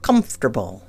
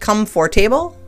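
First: Some sounds are dropped in a shortened form. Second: Every letter is sounded as it is spelled. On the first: The speaker calls it right. "but it's comfortable" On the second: The speaker calls it wrong. "It looks like comfortable"

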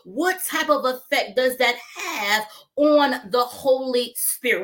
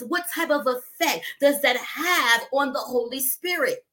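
First: It is said more slowly. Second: It is said fast.

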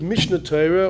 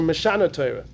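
First: The first word is said as Mishnah. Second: The first word is said as Meshana. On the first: The title means a repetition of the Torah. "do you read it Mishnah Torah" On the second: The title follows an alternative traditional reading. "or Meshana Torah?"

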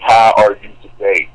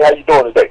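First: It is said flatly, like a robot. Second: It is said casually, like real talk.

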